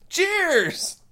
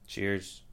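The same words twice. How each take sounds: First: It is said with lively excitement. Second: It is said flatly, without excitement.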